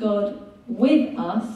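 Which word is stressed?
with. The word with carries the main stress. God is present alongside people.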